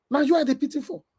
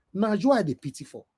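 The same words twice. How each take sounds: First: Na you I dey pity for said higher, stressing you; raised repeat. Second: Said in the usual way. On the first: Real, not acted. Scene: vlogger telling the critic he pities him, higher stressed repeat. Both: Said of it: "repeat for emphasis".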